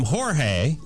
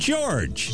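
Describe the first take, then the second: First: The name is pronounced the Spanish way. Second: The name is pronounced the English way. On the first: This is how Spanish speakers say the name. "you guys call him Jorge" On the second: This is how English speakers say the name. "We call him George"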